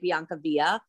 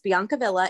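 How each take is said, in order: First: The name is pronounced as if it were Spanish. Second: The name is pronounced as an Italian word. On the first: The name is mistaken for a Spanish word. The speaker calls it wrong. "A lot of people actually say Biancavilla because they think it's Spanish" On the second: The name is recognized as an Italian word. The speaker calls it right.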